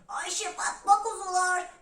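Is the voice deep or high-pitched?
high-pitched. It is said in a thin, high voice. "sesini incelterek"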